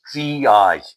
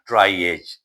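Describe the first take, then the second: First: The word is pronounced with a French-style sound. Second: The word is pronounced with an English-style sound. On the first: The speaker calls it right. "The correct pronunciation is triage. It is a French word" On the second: The speaker calls it wrong. "It is not triage"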